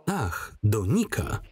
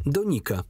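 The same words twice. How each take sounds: First: Slow, drawn-out mocking repeat; mocking echo. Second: Said in the usual way. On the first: He mocks her answer with a slow, sneering echo. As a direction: toy with her words slowly.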